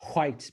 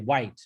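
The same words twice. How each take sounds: First: It starts with a breathy h before the w. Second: It starts with a plain w, no breath.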